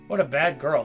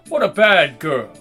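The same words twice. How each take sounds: First: It is said in the speaker's ordinary voice. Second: It is said in a put-on British villain voice. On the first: The speaker calls it wrong. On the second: The speaker calls it right.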